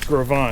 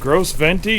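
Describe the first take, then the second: First: The name is said with s and t silent. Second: The name is said with s and t sounded. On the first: The speaker calls it right. "no, it's Grovon" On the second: The speaker calls it wrong. "is that how you say it? ... that's how it's spelled, but that's not how you say it"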